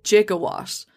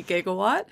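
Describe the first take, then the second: First: "gigawatt" with a j sound; mispronounced "gigawatt", g as in gem; soft-g gigawatt. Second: "gigawatt" with a hard g. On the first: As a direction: say "gigawatt" starting like "jig". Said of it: "like J I G O". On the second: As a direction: say "gigawatt" starting like "gig". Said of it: "they are trying to say gigawatt". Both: Shown as a demonstration.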